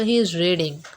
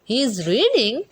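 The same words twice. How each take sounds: First: The voice falls at the end. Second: The voice rises at the end. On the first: It states that he is reading. "अब इससे पता चलता है कि वो पढ़ रहा है" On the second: It asks whether he is reading. "ना तो कोई क्वेश्चन मार्क का इस्तेमाल हुआ"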